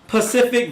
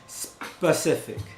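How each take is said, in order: First: The word starts with a 'pa' sound. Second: The word starts with a 'spe' sound. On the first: The speaker calls it wrong. "Pacific, talking about the ocean versus being specific" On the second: The speaker calls it right. "versus being specific"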